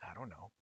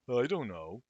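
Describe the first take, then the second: First: Quiet muttered reply. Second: Loud snapping reply. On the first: Sakuya answers quietly. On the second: Sakuya snaps back louder. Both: Acted.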